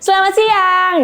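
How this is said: It is said in a high, shrill voice.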